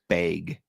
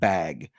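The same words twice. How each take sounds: First: It is said in a northern Minnesota accent. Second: It is said in a plain general accent. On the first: This is how people from the far north say it. "His mother says bag" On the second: This is how most other people say it. "not bag"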